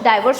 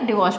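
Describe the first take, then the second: First: The first syllable sounds like 'die'. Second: The first syllable sounds like 'dih'. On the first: The speaker calls it wrong. "डाइवोर्स मत बोलेगा" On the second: The speaker calls it right. "डिवोर्स बोलेगा"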